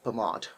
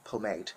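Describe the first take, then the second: First: It is said with a British pronunciation. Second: It is said with a non-British pronunciation. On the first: "British people say pomade" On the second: "They don't say uh"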